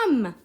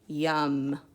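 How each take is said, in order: First: It is said loudly. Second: It is said quietly.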